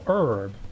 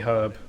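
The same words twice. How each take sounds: First: The word starts with a vowel, no H sound. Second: The word starts with a clear H sound. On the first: This is the American way of saying it. "as you'd say in America, because you don't pronounce the H" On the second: This is the speaker's own British way of saying it. "we pronounce the H"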